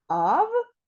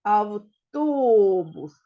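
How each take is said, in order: First: Автобус split into ав, то, бус; chopped ав-то-бус for counting; syllable by syllable. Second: Автобус with a long, loud ТО; slow авТООбус, joined as one word; stress on second syllable. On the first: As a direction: separate the three syllables of Автобус with pauses. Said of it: "Скільки тут складів?". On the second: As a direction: stretch and punch the middle syllable of Автобус. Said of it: "падає на другий склад". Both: Shown as a demonstration.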